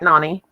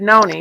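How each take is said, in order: First: The first vowel is an open 'ah' sound. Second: The first vowel is a rounded 'oh' sound. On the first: This is how most people read the spelling. "most people say Nani because it is spelled like Nani" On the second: This is how the name is meant to be said. "but you said Noni, which is very good"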